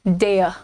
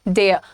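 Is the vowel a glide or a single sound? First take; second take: glide; glide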